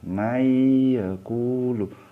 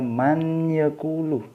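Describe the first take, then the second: First: The n merges into y with a nasal hum. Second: The n is pronounced clearly before the y. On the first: The speaker calls it right. "masuk ke ya tapi didengungkan" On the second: The speaker calls it wrong. "bukan bukan dibaca man yaqulu"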